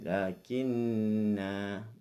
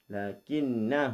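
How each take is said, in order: First: The final vowel is drawn out long. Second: The final vowel is short and runs on. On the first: The reading stops on this word. "waqaf. Dia baca panjang" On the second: The reading continues into the next word. "Bersambung bacaannya pendek"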